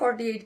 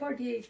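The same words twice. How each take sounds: First: It is said loudly and forcefully. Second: It is said quietly and softly. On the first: The speaker calls it right. "জোরে বলবো" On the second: The speaker calls it wrong. "এরকম আস্তে আস্তে"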